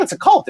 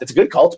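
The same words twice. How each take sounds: First: Cult jumps up high; insisting it's a cult; emphatic cult. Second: Said in the usual way. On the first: Real, not acted. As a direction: land hard on cult, pitched way up. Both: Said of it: "but it's a cult".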